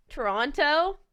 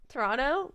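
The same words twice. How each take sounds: First: "Toronto" said with a clear t, tor-ON-toe. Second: "Toronto" with the middle t dropped, tor-ON-oh; Toronto without the t. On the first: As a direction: say "Toronto" spelling out the middle t. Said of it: "how do I say Toronto?". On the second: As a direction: say "Toronto" swallowing the t like a local. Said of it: "Am I saying it wrong?". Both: Shown as a demonstration.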